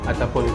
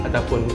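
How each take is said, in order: Both takes have the same delivery.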